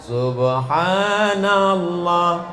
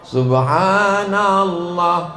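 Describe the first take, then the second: No difference in how they are said.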